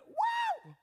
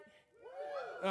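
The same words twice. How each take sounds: First: Very high, loud shout of joy; leader's whoop for the crowd to copy; joyful whoop. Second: Whispered woo. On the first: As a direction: whoop it out like a cheer. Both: Shown as a demonstration. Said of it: "Everybody say that with me".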